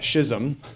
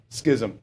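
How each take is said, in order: First: Every consonant and vowel is pronounced in full. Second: The word is pronounced in a shortened form. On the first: This is how English people say it. "if we were English, we'd say schism" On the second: This is how Americans say it. "but we would say schism"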